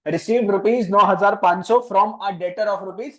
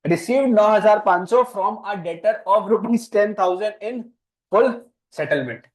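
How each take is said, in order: First: Slow, word by word, a little louder; slow dictation. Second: Very slow, louder and higher, each word set apart; slower dictation. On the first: Teacher dictating the journal entry slowly for a new student. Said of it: "नया बच्चा ना भाई, बोलना पड़ता है". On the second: Teacher repeating the whole entry very slowly so the new student can write it. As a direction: dictate it again, even slower and with more force. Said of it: "बोलना पड़ता है". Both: Shown as a demonstration.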